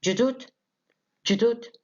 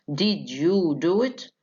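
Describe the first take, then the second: First: "Did you do it" crushed to "ju-doo-it", high and rising; fast-speech reduction. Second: "Did you do it" slowly, each word separate; every word of "Did you do it" fully sounded; full careful form. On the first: Teacher showing fast speech to students, contracted question. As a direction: squeeze "Did you" into a quick "juh". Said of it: "reduced to a minimum in fast speech". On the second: Teacher showing how it isn't pronounced, slow and careful. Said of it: "ما بننطقهاش كده". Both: Shown as a demonstration.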